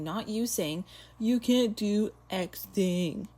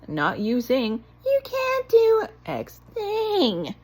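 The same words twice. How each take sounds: First: It is said in the speaker's ordinary voice. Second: It is said in a changed, put-on voice.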